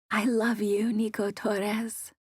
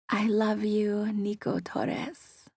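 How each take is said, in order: First: A whisper, sassy rolled R on Torres. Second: Breathy whisper, slow, with a rolled R Spanish lilt on the name. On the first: Mia repeats the line into Nico's ear, whispering. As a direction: murmur it into his ear with a mock Spanish flourish. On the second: Mia whispers her love into Nico's ear, Spanish accent on his name. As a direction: whisper it right into his ear, playful and sassy. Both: A narrator's reading. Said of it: "I whispered".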